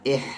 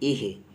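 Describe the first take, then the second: First: The h sound is harsh and throaty. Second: The h sound is a plain, normal h. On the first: The speaker calls it wrong. "इह नहीं" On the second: The speaker calls it right. "Normal हा"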